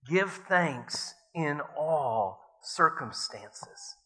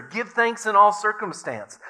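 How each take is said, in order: First: Slow solemn reading. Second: Joyful repeat. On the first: Corrie reading the Bible verse aloud, slow and solemn. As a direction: Give thanks in all circumstances read very slowly and solemnly. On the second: Betsy seizing on the verse for Corrie, joyful and loud. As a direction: Give thanks in all circumstance said much higher and louder, all stressed. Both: A narrator's reading.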